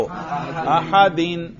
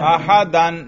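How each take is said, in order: First: अहदीन very slowly, ending on a long in; Arabic جر: أحدٍ; Arabic genitive ending. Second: अहदन said slowly, ending on an; Arabic نصب: أحدًا; Arabic accusative ending. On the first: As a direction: stretch अहदीन, landing on the final in. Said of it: "जर पर करो". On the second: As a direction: draw out अहदन with a final an. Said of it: "नसब पे तलफुज करो". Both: Shown as a demonstration.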